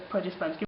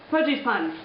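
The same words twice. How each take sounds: First: Produce puns with "produce" said PRAH-duce, short o. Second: Produce puns with "Produce" said PROH-duce, long o. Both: Shown as a demonstration.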